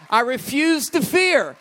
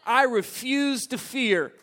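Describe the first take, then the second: First: Much louder and higher, defiant shout; shouted declaration. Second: Said in the usual way. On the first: Acted. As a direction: belt it out like a vow.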